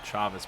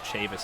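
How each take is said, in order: First: The name ends with a 'vez' sound. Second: The name ends with a 'vis' sound. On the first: The speaker calls it wrong. "I was pronouncing it Chavez before" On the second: The speaker calls it right. "But in fact, it is Chavis"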